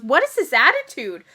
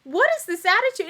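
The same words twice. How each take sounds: First: Mock indignant. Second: Higher mock indignant. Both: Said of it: "jumps down her throat and goes".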